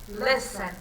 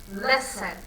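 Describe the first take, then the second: First: The stress is on the first syllable. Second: The stress is on the first syllable.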